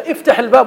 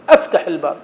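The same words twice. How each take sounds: First: The verb starts with a vowel other than 'a'. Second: The verb starts with an 'a' vowel.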